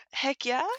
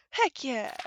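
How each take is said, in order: First: Puzzled rising "Heck yeah?"; questioning. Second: Falling, emphatic "Heck yeah."; firm. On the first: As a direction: ask "Heck yeah" back in disbelief. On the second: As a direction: state "Heck yeah" with conviction. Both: Pretend. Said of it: "Don't copy me".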